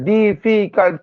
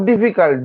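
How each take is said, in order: First: difficult slowly split into three beats; syllable by syllable. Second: Said in the usual way. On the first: Shown as a demonstration. Teacher counting syllables of difficult for students, slow and separated. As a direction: sound out ডি, ফি, cult separately. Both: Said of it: "তিনবার হচ্ছে".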